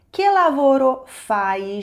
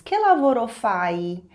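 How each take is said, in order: First: Slow and louder, stressing che; emphatic slow repeat; slower, louder repeat. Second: Slow, careful Italian demo; slow teacher demo; slow model phrase. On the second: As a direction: model it slowly for learners. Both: Shown as a demonstration. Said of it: "Em italiano, você diz".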